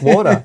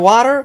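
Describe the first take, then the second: First: The word is said in an Australian accent. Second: The word is said in an American accent. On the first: This is how the local family says it. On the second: A child picked up the accent from cartoons.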